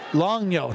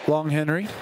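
First: The name sounds like 'Longyo'. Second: The name sounds like 'Long Henry'. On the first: The speaker calls it right. "Longyo, not Long Henry" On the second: The speaker calls it wrong. "not Long Henry. ... I've been saying that wrong"

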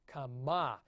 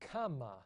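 First: The stress is on the last syllable. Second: The stress is on the first syllable. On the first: It is the participle form. "accent on the end" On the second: It is the perfect third person feminine singular. "with the accent over the kof"

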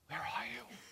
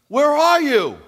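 First: It is said calmly, not called out. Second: It is called out loudly.

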